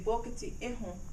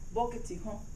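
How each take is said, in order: First: A vowel sound is heard before "hon". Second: No vowel sound is heard before "hon". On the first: The speaker calls it wrong. "we do not say bokiti ehon" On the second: The speaker calls it right. "We say bokiti hon"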